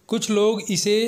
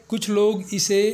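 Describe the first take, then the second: Both takes have the same delivery.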